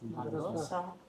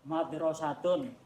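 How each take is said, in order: First: The word ends with a soft h sound. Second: The word ends with the full -tun ending.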